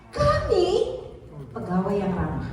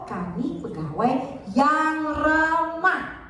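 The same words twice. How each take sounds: First: The stress falls on the word kami. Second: The stress falls on yang ramah. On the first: It is we, not others, who are friendly. "artinya kami" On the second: Being friendly is the key point. "artinya yang ramah"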